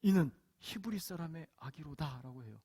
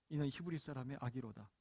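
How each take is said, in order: First: Said in the usual way. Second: 이는 히브리 사람의 아기로다 said again, softer and falling; softer repeat. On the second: Shown as a demonstration. Preacher repeats the princess's words to the congregation, softer. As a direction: drop the voice on the repeated line. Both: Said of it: "바로의 딸이 하는 말이 무엇입니까".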